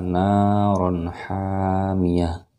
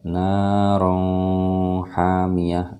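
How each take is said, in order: First: The n before hamiyah is pronounced clearly. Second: The n before hamiyah is blurred and held. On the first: The speaker calls it right. "Itu dibacanya jelas" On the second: The speaker calls it wrong. "Jadi tidak baca naron hamiyah. Nah, itu salah"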